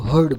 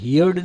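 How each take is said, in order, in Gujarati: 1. સ્વર 'her' શબ્દ જેવો સંભળાય છે. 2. સ્વર 'here' શબ્દ જેવો સંભળાય છે. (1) "હર્ડ બોલવાનું છે" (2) "ભૂતકાળની અંદર એને હિયર્ડ નથી બોલવાનું"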